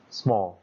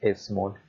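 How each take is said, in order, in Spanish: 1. La palabra empieza directamente con un sonido s. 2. La palabra empieza con una vocal e añadida. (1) "empiezo con una S" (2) "las tendemos a pronunciar con E. Entonces muchas veces decimos cosas como small"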